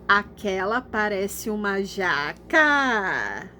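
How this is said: It is said with questioning intonation. "eu vou ler parecendo que é uma pergunta"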